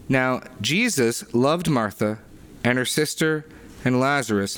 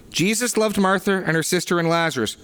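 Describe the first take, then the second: First: Said in the usual way. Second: "loved" pushed up high and held, the whole line lifted; emphatic stress on loved. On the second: Shown as a demonstration. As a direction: lean hard on "loved" to drive the point home. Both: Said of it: "the Greek here is emphatic".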